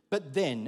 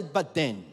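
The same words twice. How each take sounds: First: Falling, weighty "But then,"; dramatic but then. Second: "But then." repeated louder with a falling finish; echoed but then. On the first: Pastor leading the crowd to echo, weighty "But then". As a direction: land "But then" with a heavy falling pause. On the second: Pastor prompting the congregation's echo, loud "But then.". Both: Shown as a demonstration. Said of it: "everyone say".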